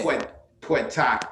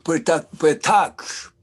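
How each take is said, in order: First: "Poetak" said slowly, POH-eh-tahk; "Poetak" sounded out; repeating the name carefully. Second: "Poetak" said as POH-eh-tahk, stress on the first syllable; "Poetak" with a crisp final k; correct name. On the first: MC echoes the poet's name back: "Poetak" said slowly. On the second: Host corrects the MC: "Poetak" POH-eh-tahk. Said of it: "Poetic or Poetic Q?". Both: Shown as a demonstration.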